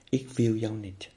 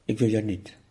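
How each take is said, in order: First: Slower, deliberate "Ik wil jou niet" with a falling "wil"; slow repeat. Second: Louder, firm "Ik wil jou niet" with a falling "wil"; firm refusal. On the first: The teacher repeats the rejection of anger slowly and deliberately. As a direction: lean on each word of "Ik wil jou niet". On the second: The teacher shows students how to reject anger, with a firm, louder "Ik wil jou niet". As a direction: push "Ik wil jou niet" away firmly, stress on "wil". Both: Shown as a demonstration. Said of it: "Zeg dat nou eens".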